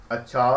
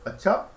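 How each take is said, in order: First: "अच्छा" said low, in a settling tone; falling tone. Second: "अच्छा" rising high at the end; questioning tone. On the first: Communication teacher showing how rhythm changes meaning, falling tone on "अच्छा". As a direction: drop "अच्छा" low as an acknowledgement. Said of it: "किसी भी बात को बहुत प्रकार से कहा जा सकता है". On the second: Communication teacher showing how rhythm changes meaning, questioning rise on "अच्छा". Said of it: "अगर आपकी लय अलग है". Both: Shown as a demonstration.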